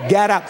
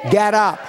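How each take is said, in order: First: Fiery shout. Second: Faith-filled shout. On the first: Congregation told to say it with fire, fiery shout. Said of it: "Say it like you've got some fire down inside of you". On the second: Told to say it like he has faith, faith-filled shout. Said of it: "Say it like you've got some faith". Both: Shown as a demonstration.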